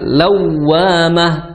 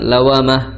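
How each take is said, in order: First: The w sound is doubled and held briefly. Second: The w sound is single and short. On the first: The speaker calls it right. "Agak di agak ditekan sebentar" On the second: The speaker calls it wrong. "jangan lawamah"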